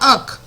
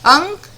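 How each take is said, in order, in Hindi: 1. k से पहले कोई नासिक ध्वनि नहीं आती है। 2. k से पहले नासिक ध्वनि आती है। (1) "अक लिखा है बच्चों" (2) "बिल्कुल सही, अंक"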